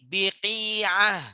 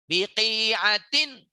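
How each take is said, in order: First: The word ends with an -ah sound. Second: The word ends with a -tin sound.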